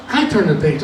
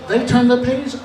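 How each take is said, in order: First: "I turn the page" dropped to usual pitch; copycat step. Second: "They turn the page" pitched high; high-pitched first half of a contrast; leading step. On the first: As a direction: let "page" fall, following along. He copies the others. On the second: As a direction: lift "page" as if more is coming. Others lead, he copies. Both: Acted.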